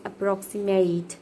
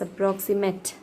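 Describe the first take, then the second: First: The last syllable is a full 'eight' sound. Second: The last syllable is a weak 'it' sound. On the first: It is used as a verb. "when you say it in verb, it is said as approximate" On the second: It is used as an adjective. "When you use it as an adjective, it is said as approximate"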